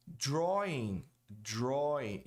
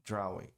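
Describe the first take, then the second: First: "Drawing" said DRAW-ing with no Portuguese R; correct English drawing. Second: "drawing" with the vowel read as a Portuguese "a", DRA-win; learner's misreading of "drawing"; wrong drawing. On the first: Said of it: "E não drawing". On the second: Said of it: "Muita gente diz". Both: Shown as a demonstration.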